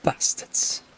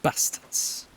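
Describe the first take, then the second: First: Bastards with short northern a; northern accent. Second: Bastards with short flat northern a; northern English Bastards, clipped a; northern accent. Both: Shown as a demonstration. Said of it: "sounds better in a northern accent".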